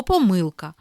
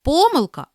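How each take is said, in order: First: Помилка as po-MYL-ka; second-syllable stress. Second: Помилка as PO-mylka; first-syllable stress. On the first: Teacher giving the other variant, second-syllable stress on помилка. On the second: Teacher reading double-stress words, first-syllable stress on Помилка. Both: Shown as a demonstration. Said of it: "слова із подвійним наголосом".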